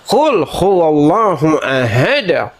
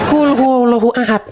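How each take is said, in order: First: The final d ends with an echoing bounce. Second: The final d ends flat with no bounce. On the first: The speaker calls it right. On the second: The speaker calls it wrong.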